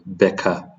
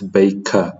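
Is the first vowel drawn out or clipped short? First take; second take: clipped; drawn out. First: The first vowel is short and clipped. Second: The first vowel is drawn out and carried. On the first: The speaker calls it wrong. "rather than Becca" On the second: The speaker calls it right. "It's baker"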